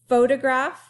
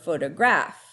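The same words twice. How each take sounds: First: The stress is on the first syllable. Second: The stress is on the last syllable. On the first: "On the fo" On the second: "or on the graph"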